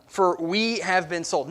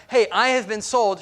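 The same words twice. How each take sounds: First: Said in the usual way. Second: Hey, I have been sold, said louder and higher, stressing hey; a pushy selfish version; self-centred demand. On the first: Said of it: "Not, Hey, I have been sold". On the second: Shown as a demonstration. Preacher shows the selfish way she did not speak.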